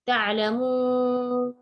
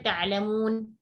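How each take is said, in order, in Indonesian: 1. Vokal sebelum n terakhir itu sangat panjang. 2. Vokal sebelum n terakhir itu pendek. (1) "enam harakat" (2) "dua harakat"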